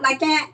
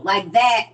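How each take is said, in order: First: "that" said as "cat", pitched up in question; local pronunciation of "that". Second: Slow "like that", with a clear TH; standard pronunciation of "that". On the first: Mocking Nap folks' speech, "that" said as "cat". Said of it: "C A T or K A T". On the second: Correcting Nap folks' speech, "that" with a clear TH. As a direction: say "that" with its TH sounded, drawn out. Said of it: "They don't say that, T H A T". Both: Shown as a demonstration.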